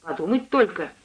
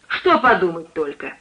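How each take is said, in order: First: Mildly exclaimed "подумать только"; a light, agreeing exclamation. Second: Cook sharply querying "подумать только"; challenging re-ask. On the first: Lodger responds to cook's story of her daughter, mildly exclaiming. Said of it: "воскликнул я". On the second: Suspicious cook asks the lodger to explain, challenging him. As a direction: throw the words back, "Что" hit hard. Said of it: "переспросила она". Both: A narrator's reading.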